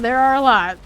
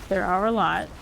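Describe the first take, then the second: First: Called out loud and amazed; loud exclamation. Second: Said in the usual way. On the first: Real, not acted. Gamer marvelling aloud at the many British accents, loud exclamation. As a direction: belt out the amazement at how many there are.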